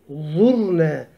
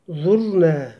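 No difference in how they are said.

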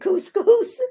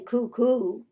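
First: The word ends with a clear s sound. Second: The word ends without a final s sound. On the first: The speaker calls it right. "We say couscous" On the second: The speaker calls it wrong. "the final S is not pronounced ... but we don't say cuckoo"

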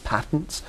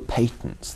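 First: The word is said with an American pronunciation. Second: The word is said with a British pronunciation. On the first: "Correction for viewers watching this in the United States" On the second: "I'm speaking British English"

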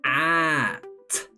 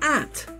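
First: The word is said slowly and drawn out. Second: The word is said quickly and clipped short. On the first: "help me read it very slowly" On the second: "And even faster"

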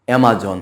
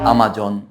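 First: The first vowel is like 'a' in 'cat'. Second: The first vowel is an open 'ah'. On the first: The speaker calls it right. "কিন্তু এটার সঠিক উচ্চারণ হচ্ছে অ্যামাজন" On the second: The speaker calls it wrong. "অনেকেই এটার উচ্চারণ করে আমাজন"

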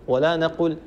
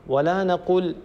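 The two takes are said the same way.

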